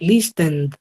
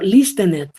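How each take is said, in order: First: The ending is a plain d sound. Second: The ending is said as an extra syllable. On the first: The speaker calls it right. "se pronuncian con una D" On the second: The speaker calls it wrong. "yo no leo listenet, yo no puedo leerlo así"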